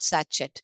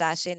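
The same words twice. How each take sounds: First: The middle consonant is a hard 'ch' sound. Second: The middle consonant is a soft 'sh' sound. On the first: The speaker calls it wrong. "not sachet" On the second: The speaker calls it right. "You read this as sachet"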